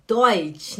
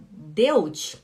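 First: Deutsch said as "doitch"; right Deutsch. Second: Deutsch said as "dewtch"; wrong Deutsch. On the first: Teacher correcting students, showing the right Deutsch. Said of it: "você tem que falar". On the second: Teacher correcting students, showing the wrong Deutsch. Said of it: "Em vez de falar Deutsch". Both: Shown as a demonstration.

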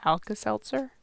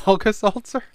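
First: Alka-Seltzer said plainly as Alka-Seltzer, eh vowel; Alka-Seltzer with a clear seltzer, rising; correct pronunciation. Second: Alka-Seltzer said as Alka-Saltzer, high rising; Alka-Seltzer with an aw vowel, saltzer; saying saltzer. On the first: Shown as a demonstration. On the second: Real, not acted. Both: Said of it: "No, you said saltzer".

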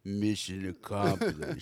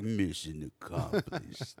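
First: Slow, lower tough-guy line; imitating Rambo's movie line; gruff Rambo quote. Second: Slow, softer tough-guy line; imitating Rambo's movie line; gruff Rambo quote. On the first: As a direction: deliver it like an action hero. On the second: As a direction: growl it like an action hero.

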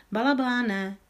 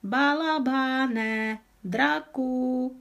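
First: Calling out. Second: Drawn-out call. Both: A narrator's reading.

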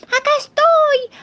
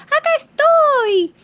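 First: High crying yell, slow; shouting for help. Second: High, slow yell, more insistent; shouting again. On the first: The little piglet yelling from the roof. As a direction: cry out from the roof. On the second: The little piglet repeating his call from the roof. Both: Acted.

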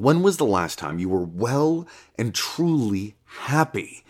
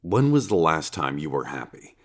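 First: "well and truly happy" pressed harder; insistent stress. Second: Said in the usual way. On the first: Acted. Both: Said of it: "And I'm not talking a fleeting feeling".

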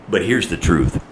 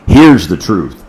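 First: Said in the usual way. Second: Louder punch on here's the truth; emphatic repeat. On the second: Shown as a demonstration. Preacher to congregation, louder emphatic repeat. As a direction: hammer it home. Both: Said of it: "repeated for emphasis".

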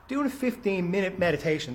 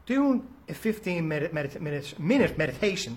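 First: Said in the usual way. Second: Tripping over the phrase and restarting; stumbling over the words. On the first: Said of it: "there we go". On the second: Real, not acted. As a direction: fumble the words and start over mid-phrase. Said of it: "can't even get it out today".

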